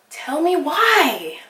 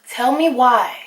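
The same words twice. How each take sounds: First: "Tell me why" stretched out slowly; slow, drawn-out "Tell me why"; slow dramatic repeat. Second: Said in the usual way. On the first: Shown as a demonstration. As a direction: drag out "Tell me why" in disbelief. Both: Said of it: "repeated as a drawn-out demand".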